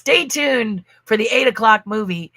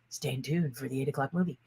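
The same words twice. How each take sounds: First: It is said in a normal voice. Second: It is said in a deep announcer voice.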